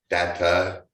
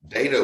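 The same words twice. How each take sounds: First: The first A is a soft A sound. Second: The first A is a hard A sound. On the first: It follows the word's Latin origin. "the Latin pronunciation is technically the proper one" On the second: It sounds like the name of a TV character. "Data was a character on Star Trek"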